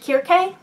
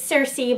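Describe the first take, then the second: First: The name begins with a hard K sound. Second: The name begins with a soft S sound. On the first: This is how the name is spelled with K's. "I had believed that this character's name was pronounced Kirke" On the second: This is how most people say the name. "that's the pronunciation that most people seem to be using"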